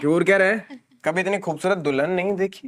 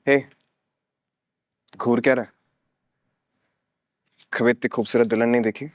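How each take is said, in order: First: It is said plainly, without loving tone. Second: It is said in a loving, romantic tone.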